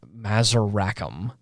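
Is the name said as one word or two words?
two words. The name is split into two separate words. This is the character's real first and last name. The speaker calls it right. "his name was spaced"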